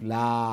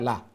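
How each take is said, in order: First: The vowel is held long. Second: The vowel is cut short. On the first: "আলিফ লা" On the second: "short"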